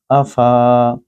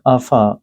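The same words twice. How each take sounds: First: The vowel is held long. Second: The vowel is kept short. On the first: The speaker calls it wrong. "instead of Afa" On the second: The speaker calls it right. "you have to say Afa"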